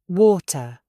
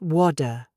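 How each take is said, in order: First: The middle T is a clear, released T. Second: The middle T sounds like a soft D. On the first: The speaker calls it right. "Stop the air. Build the pressure. Release the air" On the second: The speaker calls it wrong.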